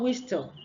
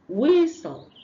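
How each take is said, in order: First: A t sound is heard in the middle. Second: No t sound is heard in the middle. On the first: The speaker calls it wrong. "Not whistle" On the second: The speaker calls it right. "The T is what? Silent"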